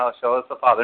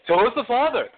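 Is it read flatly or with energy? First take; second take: flatly; energy. First: It is read flatly, without energy. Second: It is read with strong energy.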